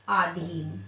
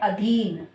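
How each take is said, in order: First: The first vowel is long. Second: The first vowel is short. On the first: The speaker calls it wrong. "अशुद्ध क्या है हमारा?" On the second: The speaker calls it right. "शुद्ध शब्द क्या है?"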